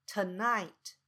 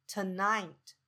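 Both takes have the same delivery.

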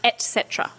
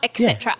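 First: The first word has a 't' sound, like 'et'. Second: The first word has a 'ks' sound, like 'ex'. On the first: The speaker calls it right. "It's et cetera" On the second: The speaker calls it wrong. "There's no X. It's not et cetera"

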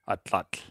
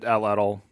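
First: The final tl is a short breathy lateral sound. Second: The final tl is an English-style 'tul' syllable. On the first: This is the original Aztec pronunciation. "the last TL is pronounced, like you put the tip of your tongue against the roof of your mouth and blow air around the sides" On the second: This is the English adaptation of the word. "We've anglicized it atlatl"

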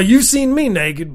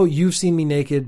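First: It is read in an exaggerated redneck accent. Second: It is read in a plain, serious voice. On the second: "Let me actually go back to seriousness for a second"

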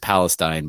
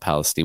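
First: The name is said in its standard pronunciation. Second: The name is said in the local pronunciation. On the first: This is how the word is normally pronounced. "the word is Palestine" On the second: This is how residents of the town say it. "all the locals call it Palestine"

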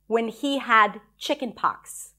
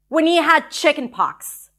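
First: The line is said flatly, with little feeling. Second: The line is said with strong, charged feeling.

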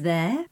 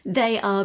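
First: It is said as one contracted syllable. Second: It is said as two full words. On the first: "They are becomes there" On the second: "They are becomes there"

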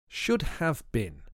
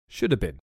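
First: The word 'have' is pronounced fully and clearly. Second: The word 'have' is reduced and run together.

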